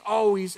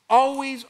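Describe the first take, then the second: First: Said in the usual way. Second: Always said louder and higher; preacher punching Always; stressed always. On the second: Shown as a demonstration. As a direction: lean hard on Always.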